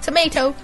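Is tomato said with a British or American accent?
American. Tomato is said with an American pronunciation. The speaker calls it wrong. "not tomato"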